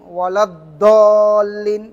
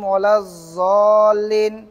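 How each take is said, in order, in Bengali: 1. মূল ব্যঞ্জনটি সাধারণ d উচ্চারণ। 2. মূল ব্যঞ্জনটি z উচ্চারণ। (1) "এটা হয়ে যায় কিসের উচ্চারণ? দালের উচ্চারণ হয়ে যায়।" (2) "জালের উচ্চারণ অথবা জয়ের উচ্চারণ হয়ে যায়।"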